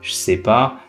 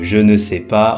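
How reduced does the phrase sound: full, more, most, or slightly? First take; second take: more; full. First: The phrase is further shortened and run together. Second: Every word is fully pronounced, including ne.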